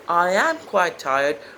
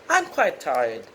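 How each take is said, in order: First: I and am are said as two words. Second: I and am merge into one syllable. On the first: The speaker calls it wrong. "You don't say" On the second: The speaker calls it right. "rather you say"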